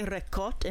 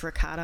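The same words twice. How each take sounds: First: It is said with an Italian-style pronunciation. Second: It is said with an American pronunciation. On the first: This is how other people say it. "it's like when people say ricotta" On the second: This is how an American says it. "it's ricotta. I'm American"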